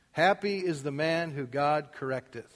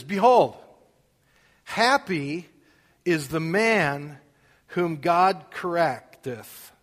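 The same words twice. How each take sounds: First: Said in the usual way. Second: Slow and loud, each phrase weighed; emphatic reading. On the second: Acted. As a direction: lean hard on man and God. Reads the verse with weight.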